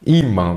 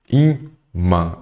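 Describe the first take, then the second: First: Said in the usual way. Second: "Imã" com pausa entre i e mã; separado em sílabas. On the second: Shown as a demonstration. ("Imã" dito sílaba por sílaba, i-mã)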